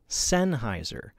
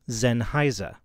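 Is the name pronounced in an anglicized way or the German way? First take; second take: anglicized; German. First: The name is said in another non-German way. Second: The name is said with German pronunciation. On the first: The speaker calls it wrong. "Many people pronounce it Sennheiser or Sennheiser, but both of those are wrong" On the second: The speaker calls it right. "The proper German pronunciation is Sennheiser"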